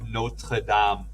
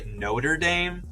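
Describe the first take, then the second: First: It is pronounced the French way. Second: It is pronounced the English way. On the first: The speaker calls it right. "they should be saying Notre Dame" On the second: The speaker calls it wrong. "we pronounce it wrong in English, like when we're talking about sports teams"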